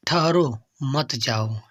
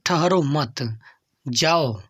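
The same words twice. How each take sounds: First: Slow "ठहरो", a break, then "मत जाओ" together; pause after ठहरो. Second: "ठहरो मत" run together, a break, then "जाओ"; pause after मत. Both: Shown as a demonstration. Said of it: "विराम का अर्थ होता है ठहराव".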